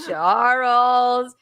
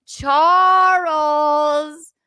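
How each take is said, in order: First: Drawn-out name at usual pitch; mock chiding call. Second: Higher, louder, long-held name; louder chiding call. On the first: Host catches the trickster caller, drawn-out chiding. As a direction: stretch the name out in mock reproach. Repeated drawn-out calling of Charles. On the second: Pretend. Host catches the trickster caller, louder drawn-out chiding. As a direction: sing out the name, stretched further.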